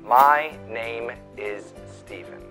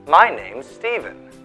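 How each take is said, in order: First: 'Name is' is said as two full words. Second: 'Name is' is contracted into one syllable. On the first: The speaker calls it wrong. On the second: The speaker calls it right.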